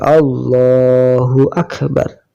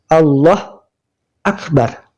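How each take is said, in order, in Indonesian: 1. Kedua kata itu disambung tanpa jeda. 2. Ada jeda antara dua kata itu. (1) "harus disambung di wasal" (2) "Tidak boleh berhenti antara dua lafal itu, tidak boleh"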